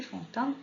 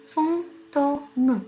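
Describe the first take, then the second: First: Said in the usual way. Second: FANTÔME drawn out slowly in separated syllables. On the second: Shown as a demonstration. Teacher showing children the syllables to look for, fantôme syllable by syllable. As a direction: sound out "fantôme" slowly, piece by piece. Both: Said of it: "trois syllabes qu'il faut chercher".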